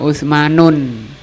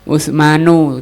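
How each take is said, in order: First: The name ends with an added n sound. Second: The name ends in a bare vowel. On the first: The speaker calls it wrong. "tidak boleh dibaca Utsmanun" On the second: The speaker calls it right. "tidak ditanwin"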